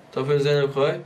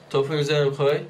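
Both takes have the same delivery.

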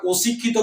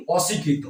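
First: অশিক্ষিত said with o, like oshikkhito; the wrong way: অশিক্ষিত with an o sound; wrong pronunciation. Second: অশিক্ষিত said with a clear open ô, oshikkhito avoided; the correct way: অশিক্ষিত with open ô; right pronunciation. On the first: Teacher showing students the mistaken reading, o sound. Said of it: "আমরা অশিক্ষিত বলিনি". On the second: Teacher giving students the correct reading, open ô. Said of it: "আমরা কি বলি?". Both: Shown as a demonstration.

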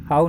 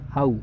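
First: "हाउ" in the reading to avoid; mistaken vowel. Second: "हाउ" gliding from ah into oo; diphthong AU. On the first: Teacher shows students the mistaken reading, faulty vowel. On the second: Teacher models the corrected word for students, gliding diphthong. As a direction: glide "हाउ" as "hah-oo". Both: Shown as a demonstration. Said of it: "हाउ नहीं होता".

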